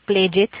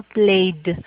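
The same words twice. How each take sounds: First: "played" broken into two syllables, "play-ed"; wrong two-syllable -ed. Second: "played" in one syllable ending in D; correct -ed as D. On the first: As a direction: demonstrate the mistake in "played" with a sounded-out "ed". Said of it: "es un error que cometemos". ("played" mal dicho, en dos sílabas) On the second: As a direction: model "played" slowly, one syllable and a released D. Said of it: "le agrego el sonido de la D". ("played" bien dicho, con D final) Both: Shown as a demonstration.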